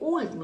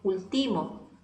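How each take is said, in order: First: The stress is on the first syllable. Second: The stress is on a later syllable. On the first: The speaker calls it right. "yo digo último" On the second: The speaker calls it wrong. "no digo último"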